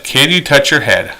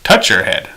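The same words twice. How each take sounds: First: A polite request phrased as a question; offered as a yes-or-no question; asking as a question. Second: Short, direct instruction; a firm, direct command voice. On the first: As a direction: ask it like a question they can refuse. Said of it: "If I said". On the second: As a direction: state it as a clear demand, not a question. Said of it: "we're gonna say". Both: Shown as a demonstration.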